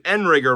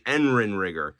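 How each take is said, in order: First: The name is said with three syllables. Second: The name is said with four syllables. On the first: The speaker calls it wrong. "I was pronouncing Enrigger wrong" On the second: The speaker calls it right. "It's actually Enrinrigger"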